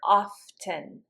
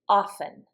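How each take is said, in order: First: The T sound is clearly pronounced. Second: The T sound is left out. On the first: "But you will hear often" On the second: "The way I pronounce it, I don't say the T"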